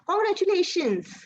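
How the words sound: It is said in a happy, bright tone. The speaker is glad for the listener. "that means that I'm happy for you"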